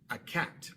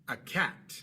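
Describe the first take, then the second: Both takes have the same delivery.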